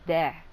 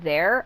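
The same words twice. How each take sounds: First: There with a flat a sound, like tha; family accent vowel. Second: Said in the usual way. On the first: Shown as a demonstration. Showing her mom's side accent on there. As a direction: let there flatten toward an a. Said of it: "I'll say there". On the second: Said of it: "instead of saying there".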